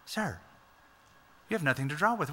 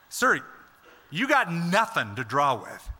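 First: The tone is gentle and polite. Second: The tone is sharp and challenging. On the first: She is simply making a polite remark. The speaker calls it wrong. "like she's just a simple little, ... she's just a nice response" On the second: She is doubting and challenging him. The speaker calls it right. "the way I think it's being said"

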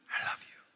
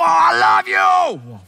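First: It is whispered softly. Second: It is shouted loudly.

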